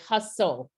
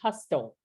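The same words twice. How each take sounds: First: The T in the middle is silent. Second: The T in the middle is pronounced. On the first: The speaker calls it right. "we say hustle, and this T is silent" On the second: The speaker calls it wrong. "we don't say hustle"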